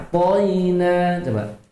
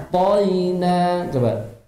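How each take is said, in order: Both takes have the same delivery.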